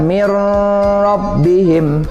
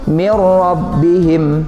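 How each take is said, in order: First: A nasal hum is held before the r. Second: The n merges into r with no nasal hum. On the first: The speaker calls it wrong. "Tidak boleh kita baca mir rabbihim. Tidak seperti itu" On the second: The speaker calls it right. "bacanya tidak boleh didengung ya"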